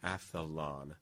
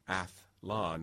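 First: An extra vowel splits the th and l. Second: The th and l join with no vowel between. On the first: The speaker calls it wrong. "not athalon" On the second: The speaker calls it right. "the spelling and the origin of triathlon and biathlon is athlon"

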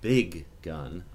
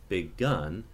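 First: The g at the end of big is clearly pronounced. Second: The g at the end of big is dropped. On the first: The size of the gun is what matters. "I might want that extra G" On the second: It is a gun as opposed to a rifle. "I could throw that first G away"

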